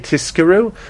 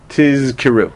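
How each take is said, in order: First: The middle consonants are a voiceless s and k. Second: The middle consonants are a voiced z and voiceless k. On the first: "it's easy to say tiskiru" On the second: "It's hard to say tizkiru"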